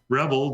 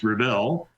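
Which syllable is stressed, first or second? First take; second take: first; second. First: The stress is on the first syllable. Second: The stress is on the second syllable. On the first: The word is a noun. "If you pronounce the first syllable the way I did, they're considered a noun" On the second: The word is a verb. "if you take the second syllable and accentuate that, then they're verbs"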